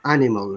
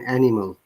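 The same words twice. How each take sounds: First: The first vowel glides like a diphthong. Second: The first vowel is plain, without a glide. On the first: The speaker calls it right. "it's with dip sound. Animal rather than" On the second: The speaker calls it wrong. "rather than animal"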